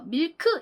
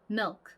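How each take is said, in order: First: The final k is released as a full syllable. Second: The final k is only a faint puff of air. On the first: The speaker calls it wrong. "저희는 이거 밀크 이렇게 발음을 하지만" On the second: The speaker calls it right. "굉장히 존재감 없이 그냥 크 이렇게 살짝 바람 빠지는 소리"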